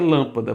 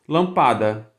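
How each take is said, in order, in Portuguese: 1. A tônica está na primeira sílaba. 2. A tônica está na segunda sílaba. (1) "então você quer lâmpada" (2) "você deveria pronunciar lampada"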